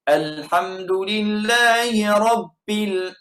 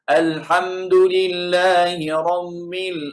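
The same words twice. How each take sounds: First: The b is pressed hard with a puff like p. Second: The b is pressed nasally like an m. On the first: "pi dia tekan lebih, tak jadi" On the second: "tekan seperti huruf mim"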